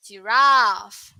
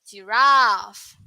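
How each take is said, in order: First: The second syllable has a long vowel. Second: The second syllable has a long vowel.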